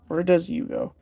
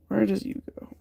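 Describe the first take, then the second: First: Said in the usual way. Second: Breathy whispered "Where does you go?"; soft unvoiced whisper of the question. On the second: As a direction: whisper the silly grammar to yourself. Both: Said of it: "totally improper English".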